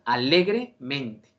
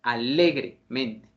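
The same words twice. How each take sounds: The two takes are said the same way.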